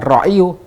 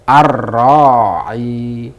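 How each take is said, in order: First: The word ends with an added 'yu' syllable. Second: The word ends on a bare 'i' sound. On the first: The speaker calls it wrong. "bukan ra'iyu" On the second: The speaker calls it right. "tetap dibaca sukun"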